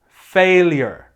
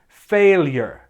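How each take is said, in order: Both takes have the same delivery.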